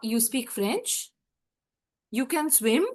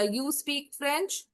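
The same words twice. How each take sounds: First: Slow, rising at the end; rising question intonation, slow; rising question tune. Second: Falling statement tune, slow; statement intonation, slow; flat statement. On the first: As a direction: turn it into a question with the voice alone. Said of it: "सिर्फ tone change करके". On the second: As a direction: say it as a plain statement. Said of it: "tone change करके question में change कर देना". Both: Shown as a demonstration.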